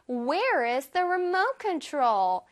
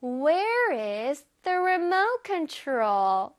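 First: Said in the usual way. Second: Very slow, drawn-out model sentence; slowed-down demo. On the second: Shown as a demonstration. Teacher leads children through the question, slowly. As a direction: stretch each word out for learners to follow. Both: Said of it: "이거를 천천히 해보자".

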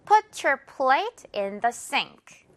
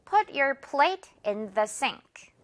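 First: Slow model with sink as siŋk; slow drill. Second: One more slow model; slow drill. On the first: Teacher models for repeat, very slow. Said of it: "자, 갑니다". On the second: Teacher models again, very slow. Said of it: "한 번 더요". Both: Shown as a demonstration. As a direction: Put your plate in the sink said very slowly.

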